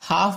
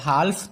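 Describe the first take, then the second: First: The word is said without an l sound. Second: The word is said with an l sound. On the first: The speaker calls it right. "हाफ बोलते हैं" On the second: The speaker calls it wrong. "हाल्फ तो नहीं बोलते हैं"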